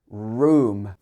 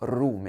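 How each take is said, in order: First: The R is smooth with the tongue not touching. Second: The R is rolled with the tongue tapping. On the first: The speaker calls it right. "It should be room" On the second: The speaker calls it wrong. "Not room"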